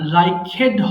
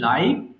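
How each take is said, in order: First: The ending is said as a separate syllable. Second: The ending joins the word as one syllable. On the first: The speaker calls it wrong. "লাইকেড হবে না" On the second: The speaker calls it right. "এটা বলতে হবে লাইকড"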